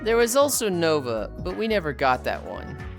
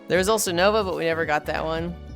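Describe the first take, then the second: First: It is read in a condescending, put-on tone. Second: It is read in a plain, neutral tone.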